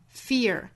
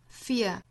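First: It is said in a tighter American accent. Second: It is said in a British accent. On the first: "美音呢要注意发音更紧凑" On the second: "它是一个双元音 ear ear fear fear"

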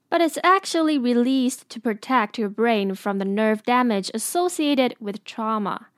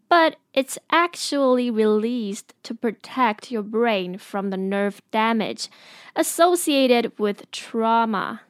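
First: It is said at a faster pace. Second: It is said at a slower pace.

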